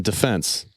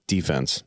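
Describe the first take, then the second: First: "defense" said duh-FENSE, stress at the end; stress on second syllable. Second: "defense" said DEE-fense, stress up front; stress on first syllable. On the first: Contrasting it with the sports word, "defense" stressed on FENSE. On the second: Repeating the sports word for friends, "defense" stressed on DEE. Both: Shown as a demonstration. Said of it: "emphasis on the different syllable".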